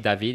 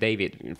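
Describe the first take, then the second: First: The name is pronounced with French sounds. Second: The name is pronounced with English sounds. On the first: "I say David in French" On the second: "when I introduce myself in English, I am David"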